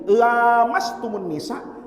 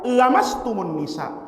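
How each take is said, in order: First: The first vowel after l is long. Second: The first vowel after l is short. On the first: "Kiroah yang enam baca panjang pakai lam alif mat tabi'i" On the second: "Imam Hamzah Az-Zayyad bacanya pendek"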